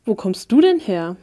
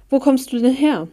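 First: A mildly confronting question. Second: Higher, lively, curious question; interested. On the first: Sinister stranger questioning a newcomer, confronting. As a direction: stress on du, otherwise level. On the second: Henry turns to question the newcomer, interested. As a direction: ask with open interest. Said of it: "fragte er interessiert". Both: A narrator's reading.

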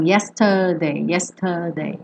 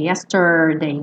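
First: YESTERDAY sem R, "iéstadei", grave; sem enrolar. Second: YESTERDAY com R enrolado no TER, grave; língua bem enroladinha. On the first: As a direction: solte a língua no TER de YESTERDAY. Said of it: "Ao invés de yesterday". (YESTERDAY à britânica, R mudo) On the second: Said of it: "com a língua bem enroladinha". (YESTERDAY à americana) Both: Shown as a demonstration.

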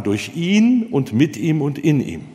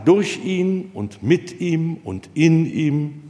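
First: "durch ihn und mit ihm und in ihm" slow, stress pushed onto "ihn"; wrong stress. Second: "durch ihn und mit ihm und in ihm" slow, stress on "durch"; sensible stress. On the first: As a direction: lean on "ihn" as if it mattered most. (falsche Betonung auf „ihn“, langsam) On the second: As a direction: give each word its natural weight, slowly. (natürliche Betonung, langsam, auf „durch“) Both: Shown as a demonstration. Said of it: "kein vernünftiger Mensch würde sagen".

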